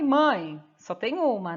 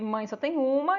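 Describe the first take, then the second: First: It is said with a pause after mãe. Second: It is said without a pause after mãe.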